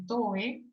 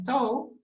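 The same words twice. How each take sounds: First: "toe" read as spelt in Spanish, "to-eh"; pronunciado como se escribe. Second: "toe" as one English syllable, silent e; pronunciación inglesa. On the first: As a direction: say "toe" in two syllables, sounding the final e. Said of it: "se escribe toe". ("toe" leído a la española, "to-e") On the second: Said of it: "Se pronuncia toe". ("toe" pronunciado en inglés, con e muda) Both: Shown as a demonstration.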